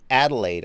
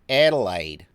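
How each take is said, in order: First: It is said in the speaker's own American accent. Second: It is said in a local Australian accent.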